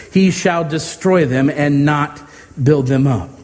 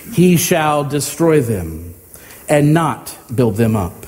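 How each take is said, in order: No difference in how they are said.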